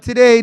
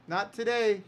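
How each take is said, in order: First: "Not today" repeated much louder, firm. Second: Quiet. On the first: Promoter refuses the arena again, louder "Not today". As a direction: punch "Not today" out loud the second time. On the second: Promoter turns down a big arena, softly refusing "not today". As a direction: murmur "not today" gently. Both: Retold or imitated. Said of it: "We'll be like".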